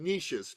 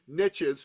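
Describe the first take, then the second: First: It is said the speaker's non-American way. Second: It is said the American way.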